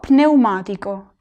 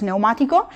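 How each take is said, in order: First: The initial P sound is clearly pronounced. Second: The initial P sound is silent. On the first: "en italiano se tiene que pronunciar" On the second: "en español no se pronuncia"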